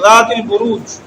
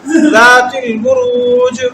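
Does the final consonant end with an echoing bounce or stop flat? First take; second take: flat; bounce. First: The final consonant stops flat without a bounce. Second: The final consonant ends with an echoing bounce. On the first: The speaker calls it wrong. "सीधा नहीं पढ़ेंगे इसको ज़ातिल बुरूज ऐसे नहीं" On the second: The speaker calls it right. "जीम को हिलाएंगे"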